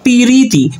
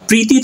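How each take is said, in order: First: A short i vowel is heard between p and r. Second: The p and r join with no vowel between.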